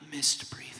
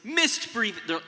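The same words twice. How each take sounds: First: It is said quietly. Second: It is said loudly.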